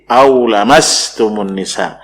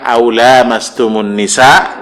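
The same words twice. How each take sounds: First: The vowel after the L is kept short. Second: The vowel after the L is held long. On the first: "tidak dibaca panjang"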